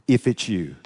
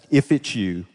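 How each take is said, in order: Both takes have the same delivery.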